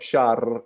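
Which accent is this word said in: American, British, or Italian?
Italian. The R is trilled with the tongue tip. "You don't use your tongue in like in Italian. It's not shark"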